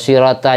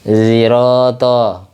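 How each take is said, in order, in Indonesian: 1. Konsonan pertama adalah bunyi s biasa. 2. Konsonan pertama dilafalkan campuran, terdengar mendekati z. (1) "kayak sin" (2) "ismam antara sin sama shad"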